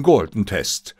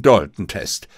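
First: "Galton-Test" said slowly with a clear G; corrected name. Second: "Dalton-Test" said with a D instead of G; mispronounced name. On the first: Watson quickly corrects his slip to Holmes. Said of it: "korrigierte ich mich sofort". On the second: Watson proudly announces the wrong test name. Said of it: "„Galton?“, zischte mir Holmes zu". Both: Acted.

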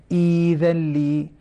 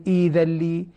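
First: إيذا لي chanted slowly, the long ي held two beats; recited tajweed. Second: Said in the usual way. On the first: Shown as a demonstration. Teacher reciting إيذا لي slowly as a verse example. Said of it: "هذه مدود بدل". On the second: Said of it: "فنقول".

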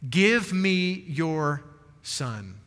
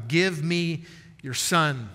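First: Very slow, trailing down to a hush on son; slow, tender plea. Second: Slow, weighty quote. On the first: Retold or imitated. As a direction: hold each word, drop to almost nothing at the end. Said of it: "simply says to this woman". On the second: Shown as a demonstration. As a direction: Give drawn out slowly, each word set apart. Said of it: "underline that simple phrase".

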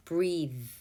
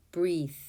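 The two takes are said the same way.

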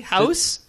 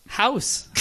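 First: "House?" with a standard American ow vowel, rising at the end; "House?" done the proper way on request; careful house. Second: "House." with the same standard ow vowel, falling and quieter; proper house. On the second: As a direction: settle "House." down, plain and proper. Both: Shown as a demonstration. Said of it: "do you want me to say it properly".

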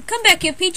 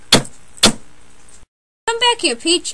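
First: Said in the usual way. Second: Very slow, breathy whisper stretching every word; whispered drawn-out call. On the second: Acted. Mario begging Peach to come back, slow whisper. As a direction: drag the plea out in a hush. Second, dramatic take of the call.

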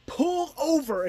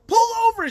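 First: Said in the usual way. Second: Much higher, much louder sharp command; urgent shouted order. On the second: Retold or imitated. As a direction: yell it down a bad phone line. Urgent phone order to friend.

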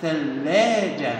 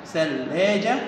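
First: Drawn-out word. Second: Said in the usual way. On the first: Shown as a demonstration. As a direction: stretch out ثلاجة very slowly, syllable by syllable. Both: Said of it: "آخر صورة يا ولاد صورة إيه؟".

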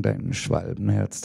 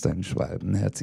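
First: Said in the usual way. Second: "dein Schwalbenherz" repeated softer, like a fading echo. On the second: Acted. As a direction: echo it back, quieter. Repeated line in poem.

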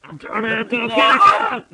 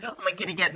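First: Loud, high thrilled announcement; excited kitty cat. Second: Said in the usual way. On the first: Pretend. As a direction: shout it with glee.

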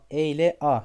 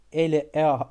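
No difference in how they are said.

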